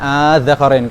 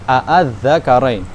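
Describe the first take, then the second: First: The opening is one long drawn-out vowel. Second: The opening has two separate short vowels. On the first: This is how it is usually read. "kita sering bacanya az-zakarain kan? ... Makanya dibaca panjang" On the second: This is the underlying original form. "Az-zakarain ini aslinya gimana?"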